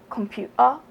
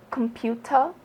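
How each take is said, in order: First: "computer" with the T dropped, a glottal catch instead. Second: "computer" with a clearly sounded T; T pronounced. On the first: Vlogger showing what she avoids, T dropped. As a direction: say "computer" Londoner-style, swallowing the T. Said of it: "so I don't drop my T's". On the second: Vlogger showing how she says it, T pronounced. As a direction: say "computer" keeping the T crisp in the middle. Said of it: "I tend to say, like, computer". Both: Shown as a demonstration.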